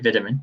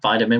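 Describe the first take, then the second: First: It is said with a British pronunciation. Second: It is said with an American pronunciation.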